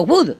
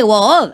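First: Wood with a short U, "gwud"; Wood as mispronounced. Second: Wood with a long open O, "wohd"; Wood as written. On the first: Retold or imitated. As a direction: say Wood short, like Spanish "gud". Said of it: "has dicho". (Wood con u corta, como "gud") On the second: Shown as a demonstration. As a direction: stretch the vowel of Wood into "woood". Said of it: "A pesar de que pone". (Wood con una o larga, como se escribe)

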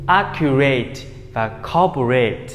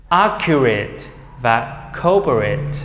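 First: Accurate, corporate ending in a long "rate"; learners' full "-rate". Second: Accurate, corporate ending in short "rit"; reduced "-rit" ending. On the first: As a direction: say accurate and corporate with AY in the final syllable. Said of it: "nếu các em đọc như vậy". (đọc accurate, corporate sai, đuôi thành "rây-t") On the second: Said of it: "thành âm it". (đọc accurate, corporate, đuôi nhẹ "rít") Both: Shown as a demonstration.

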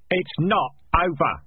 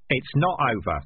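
First: Slow, forceful NOT OVER, pitched up; emphatic repeat. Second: Said in the usual way. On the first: Acted. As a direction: punch out "not over" word by word. Repeated firmly after being interrupted.

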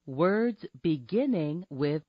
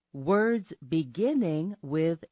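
Both takes have the same delivery.

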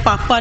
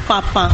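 First: ਪਾਪਾ with a plain oral final vowel; mispronounced ਪਾਪਾ. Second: ਪਾਪਾ with a nasal final vowel, "paapaan"; nasalised ਪਾਪਾ. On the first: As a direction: leave the nasal off the end of ਪਾਪਾ. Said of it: "ਪਾਪਾ ਨਹੀਂ ਬੋਲਣਾ". (ਪਾਪਾ ਨੂੰ ਬਿਨਾਂ ਬਿੰਦੀ ਬੋਲੋ) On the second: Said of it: "ਬਿੰਦੀ ਲਗਾ ਕੇ ਉਚਾਰਨ ਕਰਨਾ". (ਪਾਪਾ ਨੂੰ ਬਿੰਦੀ ਲਾ ਕੇ "ਪਾਪਾਂ" ਬੋਲੋ) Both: Shown as a demonstration.

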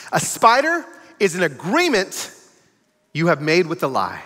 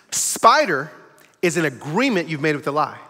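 First: "spider" and "agreement" drawn out slowly, each word weighed; teaching emphasis. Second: Said in the usual way. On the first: Shown as a demonstration. Preacher defining the spider for the congregation, slow and deliberate. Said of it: "School time". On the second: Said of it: "Say that again".

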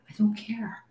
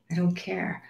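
First: Breathy whispered aside, no voice; a breezy, whispered shrug. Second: Said in the usual way. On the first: Real, not acted. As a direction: whisper it to yourself. Repeats it, first take whispered.

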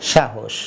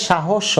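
First: "সাহস" as shahosh, ending on sh, low and falling; closed final consonant. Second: "সাহস" as shahosho, open vowel at the end; wrong final vowel. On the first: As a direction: close "সাহস" on sh with no vowel after. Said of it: "তাহলে উচ্চারণ হবে". (হসন্ত দিয়ে "সাহস") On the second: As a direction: add an o after the last sh of "সাহস". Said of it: "উচ্চারণটা ঠিকমতো হয়নি". (হসন্ত ছাড়া "সাহস") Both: Shown as a demonstration.

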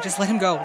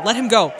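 First: Said in the usual way. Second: Much louder pleading let him go; urgent louder plea. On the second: Real, not acted. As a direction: beg the screen to spare him.

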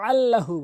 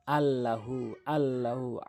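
First: "আল্লাহু" opened with a strong mid-throat squeeze; pressed ayn. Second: "আল্লাহু" slow with a light, unpressed first sound; hamza for ayn. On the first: Teacher corrects the mistake, forceful ayn on "আল্লাহু". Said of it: "আল্লাহু বলতে হবে". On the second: Teacher imitates most people's mistake, soft-onset "আল্লাহু". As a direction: start "আল্লাহু" on a simple hamza, no throat squeeze. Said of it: "অধিকাংশ লোক ভুল করে বলে থাকে". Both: Shown as a demonstration.

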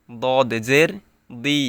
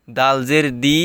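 First: দদ জের দি with a thick, heavy, full-mouthed দি; heavy dod. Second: দাল জের দি with a light, thin দি; thin dal. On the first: Teacher showing the heavy letter against the thin one, thick and full. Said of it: "দদ মোটা হচ্ছে". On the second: Teacher showing the thin letter against the heavy one, light and thin. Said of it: "দুইটার উচ্চারণ কিন্তু একদমই আলাদা". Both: Shown as a demonstration.

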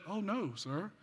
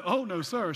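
First: "Oh, no, sir" softer, with "sir" set apart; soft "Oh, no, sir", comma heard before "sir"; corrected comma phrasing. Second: "Oh, no, sir" run together in one firm push; misread phrasing. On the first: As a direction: say "Oh, no" first, then "sir" as a gentle address. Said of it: "She said". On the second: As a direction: say "Oh, no, sir" as one unbroken, louder refusal. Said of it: "She didn't say". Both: Shown as a demonstration.

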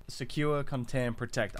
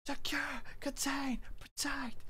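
First: Said in the usual way. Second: High, soft, eerie chant; creepy voice. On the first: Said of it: "If I just yell". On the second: Shown as a demonstration. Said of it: "That's creepy".

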